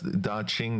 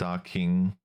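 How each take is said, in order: First: The second syllable starts with a 'ch' sound. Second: The second syllable starts with a 'k' sound. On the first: The speaker calls it right. "that's Daching, Qing, like the Qing Dynasty Qing" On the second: The speaker calls it wrong. "not not Docking"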